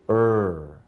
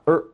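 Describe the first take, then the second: First: The er sound is held long. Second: The er sound is cut short. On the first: The speaker calls it right. "This is a long sound and not a short sound. So we say er" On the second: The speaker calls it wrong. "not er"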